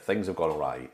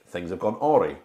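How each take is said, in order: First: Awry is said with its usual spoken pronunciation. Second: Awry is sounded out as it looks written. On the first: The speaker calls it right. "I would say the word things have gone awry" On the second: The speaker calls it wrong. "whenever I would read it in a book, I would be like"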